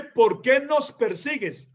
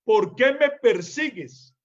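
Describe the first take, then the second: First: Slow, leaning on "nos"; slow "¿Por qué nos persigues?" with weight on "nos"; wrong version. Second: "me" clearly stressed, said slowly; slow "¿Por qué me persigues?" with "me" stressed. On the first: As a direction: say "nos" slowly as the wrong reading. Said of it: "Ahí no dice así". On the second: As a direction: hit the word "me" as the true reading. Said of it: "Ahí lo que dice es". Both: Shown as a demonstration.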